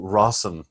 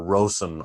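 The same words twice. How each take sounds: First: "Rosen" with a short o, like "Rossen"; alternative name pronunciation. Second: "Rosen" with a long o, as ROH-zen; alternative name pronunciation. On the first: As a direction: say "Rosen" as ROSS-en. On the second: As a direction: stretch the first vowel of "Rosen" to "oh". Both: Shown as a demonstration. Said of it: "I don't know how her last name is pronounced".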